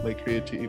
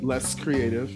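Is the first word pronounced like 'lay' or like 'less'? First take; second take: lay; less. First: The first word sounds like 'lay'. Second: The first word sounds like 'less'. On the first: The speaker calls it right. "a lot of people don't know how to say this or pronounce this" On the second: The speaker calls it wrong. "So not less creative"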